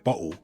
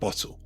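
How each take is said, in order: First: The middle t is a glottal stop. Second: The middle t is a clear t. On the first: "you're going to hear bottle instead of" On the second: "instead of bottle"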